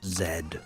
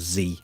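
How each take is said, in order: First: The letter is said as zed. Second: The letter is said as zee.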